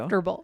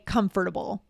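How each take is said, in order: First: The word is said with three syllables. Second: The word is said with four syllables. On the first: "Same here" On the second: "I don't say comfortable. Yeah, that's that takes too long"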